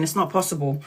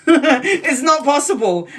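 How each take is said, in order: First: Said in the usual way. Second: Slow, higher and louder, laughing through it. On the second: Real, not acted. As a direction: laugh as you repeat it.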